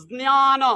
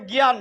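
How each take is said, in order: First: জ্ঞান as z-nyaa-nom, j and n both sounded; careful Sanskrit model of জ্ঞান, starting j-n; Sanskrit pronunciation. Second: Said in the usual way. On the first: Shown as a demonstration. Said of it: "সংস্কৃতে উচ্চারণ করতে গেলে". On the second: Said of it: "Bangla শব্দটা".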